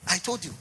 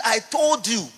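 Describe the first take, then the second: First: Said in the usual way. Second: "I told you" thrown out loud, higher, "told" hit hard; "I told you" punched loud on "told"; forceful declaration. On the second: Acted. Repeats God's claim with force.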